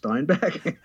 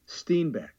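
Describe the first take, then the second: First: The first syllable sounds like 'stine'. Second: The first syllable sounds like 'steen'. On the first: The speaker calls it right. "it couldn't pronounce Steinbeck" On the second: The speaker calls it wrong. "How did it say Steinbeck?"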